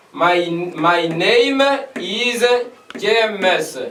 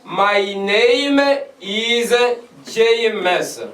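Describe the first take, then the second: First: "My, my name is James" repeated at half pace; slow it right down for students to copy; slower teaching repeat. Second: "My name is James" said carefully, word by word; clear, careful classroom model; teaching example. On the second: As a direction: model the sentence for students. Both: Shown as a demonstration. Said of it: "l'exemple de dire".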